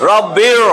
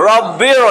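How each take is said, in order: Both takes have the same delivery.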